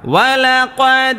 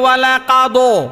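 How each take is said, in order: First: The word ends on a bare consonant. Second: The word ends with an extra vowel sound. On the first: The speaker calls it right. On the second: The speaker calls it wrong.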